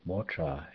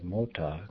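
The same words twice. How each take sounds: First: Motra with R in the second syllable; added R sound. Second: Said in the usual way. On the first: Shown as a demonstration. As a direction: put an r after the t in motra. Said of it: "with an R sound in the second syllable". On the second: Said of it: "may be pronounced with an R sound".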